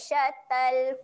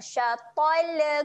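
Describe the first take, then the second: First: The final L is held without any release. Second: The final L is released with a bouncing vowel. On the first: The speaker calls it right. "lam kita kena tahan bunyi dia" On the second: The speaker calls it wrong. "Jangan ada kita lepaskan bunyi macam syatol. Syatol kubro. Macam tu bacaan yang salah"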